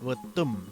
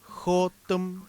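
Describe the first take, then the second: First: The word begins with a V/B sound. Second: The word begins with a throaty J sound. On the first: "dicen Votum, con, como con B" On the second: "la J, como en la palabra Jotum"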